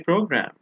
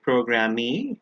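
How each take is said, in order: First: The word ends on the 'm' consonant. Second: The word ends with an extra 'ee' vowel. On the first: The speaker calls it right. "We say program" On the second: The speaker calls it wrong. "We don't say programmee"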